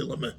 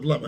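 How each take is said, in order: First: Lameh said as "la-meh", final "eh"; Lameh ending in -eh. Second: Lameh said as "lama", final "ah"; Lameh ending in -ah. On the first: Retold or imitated. Showing the class how the rabbi said it, Lameh ending in "eh". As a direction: end Lameh on "eh" instead of "ah". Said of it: "he would say Lameh". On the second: Shown as a demonstration. Showing the class the expected form, Lameh said as "lama". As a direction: say Lameh with an open "ah" at the end. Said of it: "instead of Lameh".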